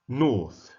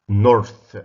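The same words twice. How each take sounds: First: The r sound is not pronounced. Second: The r sound is clearly pronounced. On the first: "British pronunciation. ... The, Brit the British don't" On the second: "American. The Americans pronounce the R"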